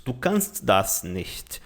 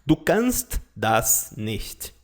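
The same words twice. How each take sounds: First: Slow, lower German line; slow, lower model line; slow example sentence. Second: Slow, lower German model line; slow, lower teacher demo; slow example sentence. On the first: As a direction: say it slowly again. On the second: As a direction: drag it out slowly and low. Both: Shown as a demonstration. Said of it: "Outro exemplo de frase".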